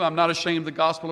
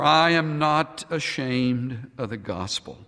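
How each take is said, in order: First: It is read in a flat, bored way. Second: It is read in an earnest, heartfelt way. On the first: The words feel old and familiar. The speaker calls it wrong. "with a ho-hum attitude" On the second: The words feel new and full of hope. The speaker calls it right. "read it as if for the very first time"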